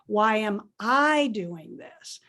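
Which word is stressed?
I. The stress falls on the word I. It asks whether I am the right person to do it. "the same words, except it's a different emphasis"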